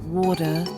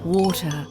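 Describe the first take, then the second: First: The middle T is a soft, D-like flap. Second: The middle T is a clear, crisp T. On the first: The speaker calls it wrong. "not water" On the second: The speaker calls it right. "the T in water. Yes, it's pronounced water"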